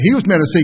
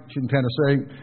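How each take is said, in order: First: Said in the usual way. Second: "Tennessee" ending in a drawn "say", imitated local accent. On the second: Preacher joking about a friend's wife, imitated Tennessee accent. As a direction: mimic a Tennessee local saying "Tennessee". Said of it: "you could tell she was from Tennessee".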